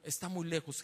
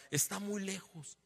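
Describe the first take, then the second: First: Said in the usual way. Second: "Está muy lejos" slow, leaning on "muy"; stress on muy. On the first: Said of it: "Está muy lejos", como diciendo". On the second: Shown as a demonstration. Father brushing off the prophet, slow stress on "muy". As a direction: drag out "muy lejos" dismissively. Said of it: "como diciendo".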